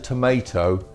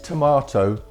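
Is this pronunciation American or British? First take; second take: American; British. First: It is said with an American pronunciation. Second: It is said with a British pronunciation. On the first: "in America" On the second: "in England is a"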